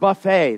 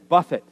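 First: It is pronounced like the word for a meal. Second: It is pronounced like the word for hitting. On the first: A spread of food served after church. The speaker calls it wrong. "That is not buffet" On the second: To strike or batter someone. The speaker calls it right. "that is buffet"

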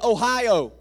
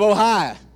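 First: It is said in a northern West Virginia accent. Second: It is said in a southern West Virginia accent. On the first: The speaker sounds educated or fancy to people back home. "I say Ohio" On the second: The speaker sounds like where he grew up. "which is what it is back home"

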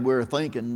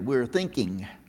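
First: The word ends in a plain 'n' sound. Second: The word ends in a full 'ng' sound. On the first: "instead of saying we're thinking" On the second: "We had to learn to put the G on the end"

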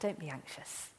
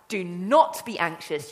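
First: It sounds gentle and loving. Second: It sounds annoyed and impatient. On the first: The listeners are comforted out of love. The speaker calls it right. "come on, my children" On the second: The listeners are scolded for being anxious. The speaker calls it wrong. "you irritating bunch of worms, will you just stop it?"

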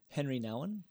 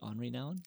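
First: The first name is said the plain English way. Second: The first name is said the French way. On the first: The usual everyday way of saying the name. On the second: It shows off knowing the proper original pronunciation.

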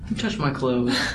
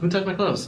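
First: It sounds angry and accusing. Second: It sounds surprised and wondering.

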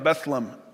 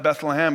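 First: The name is said in a shortened form. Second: The name is said in its full form. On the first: "it was shortened in the London English dialect" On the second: "instead of Bethlehem"

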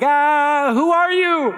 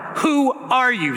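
First: The voice sounds scared and startled. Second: The voice sounds angry and defensive. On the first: The man is frightened by the stranger. "a little bit scared, kind of startled, maybe a little anxious" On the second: The man is ready to defend himself. "more an angry, sort of ready to defend his life and his grain pile"

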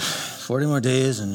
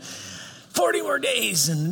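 First: It is mumbled in a flat, lackluster way. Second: It is shouted in an angry, raging way. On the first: The speaker does not care and obeys reluctantly. "the mumble preach" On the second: The speaker is furious at the listeners. "a rage preach"

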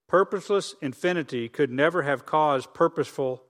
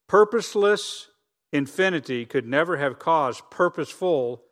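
First: The sentence is read at a normal pace. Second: The sentence is read more slowly.

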